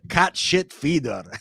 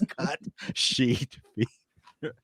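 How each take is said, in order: First: The vowel in 'sheet' is short, like 'shit'. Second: The vowel in 'sheet' is long and clear. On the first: The speaker calls it wrong. "he had a very heavy Spanish accent. He would always say cat shit feeder" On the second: The speaker calls it right.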